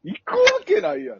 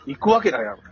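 First: Much higher, louder retold refusal; mock shouted refusal. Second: Flat dismissive refusal, a bit louder; retold blunt refusal. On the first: Quoting his wife's refusal as a much higher, louder mock shout. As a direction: bark out the wife's no. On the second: Quoting his wife's blunt refusal, a bit louder. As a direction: brush the offer off curtly. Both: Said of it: "って言ってたわ".

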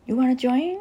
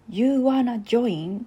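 First: Quicker "You wanna join", run together and lifted into a higher question; clumsy English imitation. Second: Slow, drawn-out "You wanna join", rising at the end; clumsy English imitation. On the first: Host repeating a friend's line that sounded like Hakata dialect, quick clumsy English. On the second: Host quoting a friend's English line, clumsy pronunciation. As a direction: say "You wanna join" slowly in unpolished Japanese-accented English. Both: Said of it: "ちょっと発音下手くそですけど".

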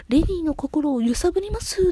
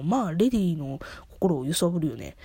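First: High, dramatic charmer's line; a hint of a gallant stage pirate; suave pirate line. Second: Said in the usual way. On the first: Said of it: "って、まあ、スキャターの".

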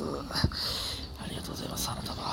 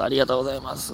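First: Breathy whisper, much softer; whispered thanks. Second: Said in the usual way. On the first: Shown as a demonstration. Thanking listener, then whispering it. (ささやき声でお礼)

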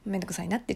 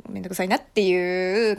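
First: Said softly, as a quiet aside; hushed admission; small voice. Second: Said in the usual way. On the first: Real, not acted. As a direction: drop the volume for a little confession. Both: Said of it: "ちょっと小声でね".

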